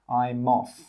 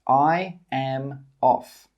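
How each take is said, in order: First: I'm is contracted and linked into off. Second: I am is said as two separate words. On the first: The speaker calls it right. "the I'm and the off come together and we say I'm off" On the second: The speaker calls it wrong. "We don't say I am"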